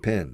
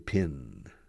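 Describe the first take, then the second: First: The vowel sounds like the one in 'bed'. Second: The vowel sounds like the one in 'bit'. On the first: "I don't say pen"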